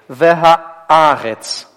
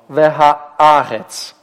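No difference in how they are said.

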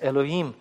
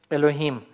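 First: The h is dropped and the vowels join. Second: The h is a light breathy sound.

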